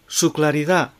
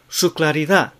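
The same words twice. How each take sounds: No difference in how they are said.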